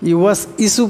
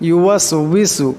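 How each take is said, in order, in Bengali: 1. isu-এর আগের w আওয়াজটি বাদ যায়। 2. isu-এর আগে একটি গোল w আওয়াজ আসে। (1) "পড়বেন না" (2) "ওয়াবের উচ্চারণটি করতে সময় ঠোঁট দুটা গোল হয়ে যাবে"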